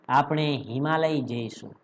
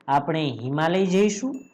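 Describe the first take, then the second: First: It is said with a plain statement tune. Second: It is said with a questioning tune.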